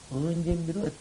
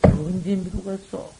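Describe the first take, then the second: First: 언제 repeated softer, almost to himself; soft echo. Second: 언제 drawn out slowly and stressed; slow rhetorical question. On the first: Monk repeats his question to the assembly, much softer. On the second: Monk asks the assembly, slow stressed 언제. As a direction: ask it slowly, weighing 언제. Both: Shown as a demonstration.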